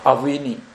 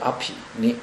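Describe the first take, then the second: First: The second syllable starts with a 'v' sound. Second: The second syllable starts with a 'p' sound. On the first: The speaker calls it wrong. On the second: The speaker calls it right.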